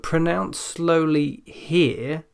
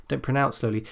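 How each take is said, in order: First: Slow, higher and deliberately drawn out; slow pronunciation. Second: Said in the usual way. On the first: Shown as a demonstration. Teacher telling students how to practise here, slow pronunciation. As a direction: take each word slowly and carefully. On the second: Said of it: "Speak slowly".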